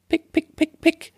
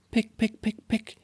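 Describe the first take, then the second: First: Very high chirpy pick sounds; bird pecking. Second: High, hushed little pick sounds; tiny quiet pecks; soft bird pecking. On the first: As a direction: peck it out like a little bird. (hohes Picken wie ein Vöglein) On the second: (leises, hohes Picken) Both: Acted. Täubchen picken die Linsen.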